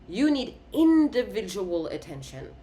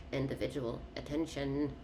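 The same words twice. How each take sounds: First: INDIVIDUAL pushed out louder; emphatic, individual stressed; stressing individual. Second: Individual attention said quietly, trailing off; softer repetition; soft repeat. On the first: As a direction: lean hard on individual. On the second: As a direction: murmur it to yourself. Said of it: "But individual attention". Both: Shown as a demonstration.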